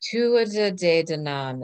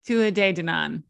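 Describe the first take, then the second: First: Tuatha said slowly with the T clearly sounded, TOO-a-ta; careful spelled-out Tuatha, the T pronounced. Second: Tua with no T sound, TOO-a; Irish pronunciation. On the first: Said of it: "Is that better?". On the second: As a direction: Tua De Danann, silent T H. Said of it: "that's how they said it". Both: Shown as a demonstration.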